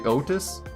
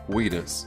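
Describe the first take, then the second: First: The name begins with a vowel sound. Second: The name begins with a 'w' sound. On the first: The speaker calls it right. "I know it's meant to be Otis" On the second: The speaker calls it wrong. "I still call fucking Wheatus Wheatus"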